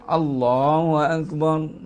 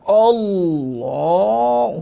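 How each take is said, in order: First: It is said flatly, with little energy. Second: It is said heavily, with great effort.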